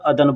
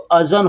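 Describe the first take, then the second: First: The middle consonant is a 'd' sound. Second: The middle consonant is a 'z' sound. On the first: This is how people commonly say it. "लोग बोलने के लिए अदन अदन बोलते हैं" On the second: This follows the written spelling. "लिखावट में ... ज़ाल और नून, तो अज़न होता है"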